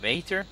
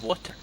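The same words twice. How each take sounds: First: WAITER with a long AY vowel; pronunciation contrast. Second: WATER with an O vowel; pronunciation contrast. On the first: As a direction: say "waiter" with the AY sound, voice lifting. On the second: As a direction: say "water" with an O, voice lifting. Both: Shown as a demonstration. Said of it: "it's completely different pronunciation".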